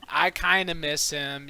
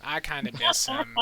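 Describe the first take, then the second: First: Said through a laugh. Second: Lightly mock wistful tone. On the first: Acted. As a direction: laugh while saying it. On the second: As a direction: pretend to be sad about it. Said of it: "Just playing".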